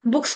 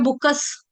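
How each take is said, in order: First: Said in the usual way. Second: बुकस with a vowel inserted before "s"; mimicked Kashmiri बुकस; Kashmiri pronunciation. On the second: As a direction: split बुक्स into buk-kas. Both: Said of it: "बुक्स को बोलते हैं बुकस".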